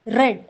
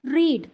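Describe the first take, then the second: First: റെഡ് said with a short e, like the colour red; past tense read. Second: റീഡ് said with a long ee, like reed; present tense read. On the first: Teacher showing learners the past tense റെഡ്, said red. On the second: Teacher showing learners the present tense റീഡ്, said reed. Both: Shown as a demonstration. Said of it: "pronunciation അല്ലെങ്കിൽ അതിൻ്റെ ഉച്ചാരണത്തിലായിരിക്കും".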